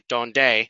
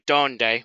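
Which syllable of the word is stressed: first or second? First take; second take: second; first. First: The stress is on the second syllable. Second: The stress is on the first syllable. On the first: The speaker calls it wrong. "we don't say donde" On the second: The speaker calls it right. "we say donde"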